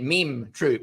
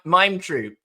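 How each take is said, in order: First: The vowel in 'mime' sounds like 'meem'. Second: The vowel in 'mime' sounds like 'my'. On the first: "that's the French like meme" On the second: "the boring English version"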